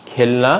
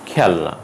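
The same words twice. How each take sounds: First: খেলনা with closed "e"; closed first vowel. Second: খেলনা with open "ae"; খেলনা with "ae" as in "cat"; open first vowel. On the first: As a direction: say খেলনা as "khelna". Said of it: "নয়". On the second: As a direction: say খেলনা as "khaelna". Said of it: "হবে". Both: Shown as a demonstration.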